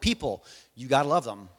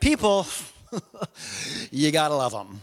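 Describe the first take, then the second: First: It is said firmly, as a plain statement. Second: It is said with a weary, exasperated shrug. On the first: You are obliged to love people; there is no choice. "You can either say it demonstratively, like just it's a fact" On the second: People are annoying but you're stuck with them. "Like what are you gonna do? They're here"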